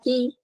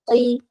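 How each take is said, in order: First: The syllable is pronounced light and thin. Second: The syllable is pronounced heavy and thick. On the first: The speaker calls it wrong. "tapi dibaca ki" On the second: The speaker calls it right. "yang seharusnya tebal misalkan qi"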